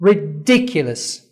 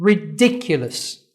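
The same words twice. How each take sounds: First: Very slow "Ridiculous", DI leaned on; stress on DI. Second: "Ridiculous" very slow, DI stretched; stress on DI. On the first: Teacher answering quiz, slow stressed DI. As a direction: stretch "Ridiculous", lean on DI. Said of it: "تاني مقطع هو ده اللي أنا عملت stress on". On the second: Teacher quizzing students, slow stressed DI. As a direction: drag out "Ridiculous", punch DI. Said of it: "أي مقطع لفظي ... عملت stress on". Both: Shown as a demonstration.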